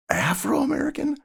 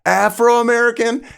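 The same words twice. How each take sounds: First: Very high-pitched questioning repeat, not shouted; incredulous echo. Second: High, loud, questioning holler; yelled back. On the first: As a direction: echo it back in disbelief. Echoes the shouted term, incredulous. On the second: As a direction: shout back what you misheard. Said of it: "yelled back, like". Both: Retold or imitated.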